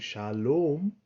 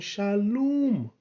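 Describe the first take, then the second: First: The second vowel sounds like 'oh'. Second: The second vowel sounds like 'oo'. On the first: The speaker calls it wrong. "not merely O as in Shalom" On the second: The speaker calls it right. "but U as in Shalom"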